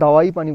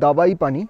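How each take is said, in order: First: The first word has a w sound in the middle. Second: The first word has a b sound in the middle. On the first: This is how most people say it. "বেশিরভাগ মানুষই এটাকে pronounce করে দাওয়াই পানি বলে, মানে ডাব্লু দেয়" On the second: This is the place's actual name. "এই জায়গাটার নাম কিন্তু অ্যাকচুয়ালি দাবাই পানি, মানে ডিএ বিএ আই"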